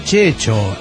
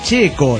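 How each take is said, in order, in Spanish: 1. La consonante del medio es un sonido ch. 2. La consonante del medio es un sonido k. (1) "no Checho" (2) "es Checo"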